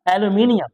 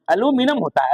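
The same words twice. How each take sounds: First: एल्यूमिनियम said e-lu-MI-ni-yam, with the full -ium ending; British aluminium. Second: एल्यूमिनियम said a-LU-mi-num, four syllables, with a higher voice; American aluminum. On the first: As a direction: give एल्यूमिनियम its five syllables, ending in -iyam. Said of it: "जबकि यहाँ होता है एल्यूमिनियम". (एल्यूमिनियम British ढंग से, 'एल्यूमिनियम' पूरा) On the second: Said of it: "तो America में एल्यूमिनियम". (एल्यूमिनियम American ढंग से, 'अलूमिनम') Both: Shown as a demonstration.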